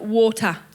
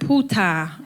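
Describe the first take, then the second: First: The word begins with a W sound. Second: The word begins with a P sound. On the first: "you and I pronounce it water" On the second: "He pronounces it puta"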